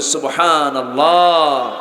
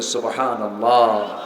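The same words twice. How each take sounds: First: It is said even more loudly. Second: It is said loudly.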